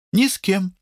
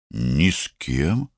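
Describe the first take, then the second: First: Short, high reply in a character voice; high-pitched answer. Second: Slow, puzzled echo rising at the end; surprised question. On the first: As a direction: answer quickly, pitched well up. Lata's answer, echoed by Amit. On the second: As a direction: repeat it slowly in mild surprise. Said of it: "удивился Амит". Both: A narrator's reading.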